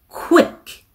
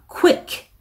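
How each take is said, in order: No difference in how they are said.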